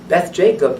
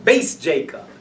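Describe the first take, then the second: First: The first word ends with a th sound. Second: The first word ends with an s sound. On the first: This is the Yemenite Hebrew pronunciation. "That is Taimani"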